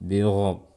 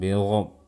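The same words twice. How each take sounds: The two takes are said the same way.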